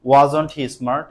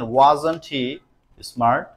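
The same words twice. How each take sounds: First: Said in the usual way. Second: Slow, word by word dictation. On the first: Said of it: "repeated as natural question". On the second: Shown as a demonstration. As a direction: read the sentence out slowly. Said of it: "slow dictation of example". (ধীরে ধীরে বলা)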